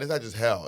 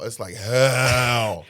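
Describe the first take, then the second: First: Said in the usual way. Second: Hell drawn way out slowly; emphatic HELL. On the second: Shown as a demonstration. Comic correcting how bad it is, hell long and emphatic. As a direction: stretch out hell for dramatic weight.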